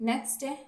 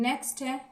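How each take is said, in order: No difference in how they are said.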